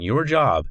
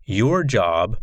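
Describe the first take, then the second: First: Emphatic "your job" with a falling "job"; stress on job. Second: Said in the usual way. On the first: Shown as a demonstration. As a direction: lean into "job" as you restate it.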